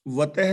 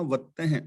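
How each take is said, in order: First: ਵਤਹਿ with a short, single t; mispronounced ਵਤਹਿ. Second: ਵੱਤਹਿ with a held double t; correct ਵੱਤਹਿ. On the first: Teacher showing listeners how not to read it, wrong single-t ਵਤਹਿ. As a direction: say ਵਤਹਿ without doubling the t. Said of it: "ਨਹੀਂ ਪੜ੍ਹਨਾ". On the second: Teacher correcting the scripture reading, double-t ਵੱਤਹਿ. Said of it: "ਵਤਹਿ ਨਹੀਂ ਪੜ੍ਹਨਾ, ਵੱਤਹਿ". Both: Shown as a demonstration.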